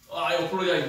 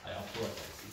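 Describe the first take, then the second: First: Louder, heartfelt oh, I apologize; strong apology. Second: Softer, lower I apologize; plain apology. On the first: Teacher shows the strong form of apologize, louder. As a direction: weigh down on oh, full of feeling. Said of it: "meaning is very, uh, strong feeling". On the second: Teacher contrasts the plain apologize, softer and lower. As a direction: say it simply, without the oh. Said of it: "It's a little bit different". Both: Shown as a demonstration.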